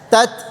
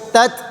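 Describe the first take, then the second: Both takes have the same delivery.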